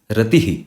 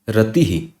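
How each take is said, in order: First: The final breath echoes the preceding 'i' vowel. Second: The final breath echoes the preceding 'i' vowel.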